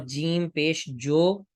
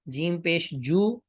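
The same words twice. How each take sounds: First: Slow spelling, جو ending in "oh", "jo"; Urdu pronunciation. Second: Slow spelling, جو ending in "oo", "joo"; Arabic pronunciation. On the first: Teacher spells it for Urdu, majhool "jo" in جو. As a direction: draw out جو as "jo". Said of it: "یہ اردو کا تلفظ ہے". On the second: Teacher spells it for Arabic, maroof "joo" in جو. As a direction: draw out جو as "joo". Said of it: "یہ عربی کا تلفظ ہے". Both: Shown as a demonstration.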